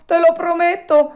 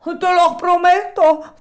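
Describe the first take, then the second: First: High, loud promise rushed out; hurried promise. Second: High, loud, slow pleading promise; desperate promise. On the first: Alidoro repeating his promise faster, urgent and high. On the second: Alidoro promising in a panic, slow and high. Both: A narrator's reading. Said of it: "A quelle grida strazianti".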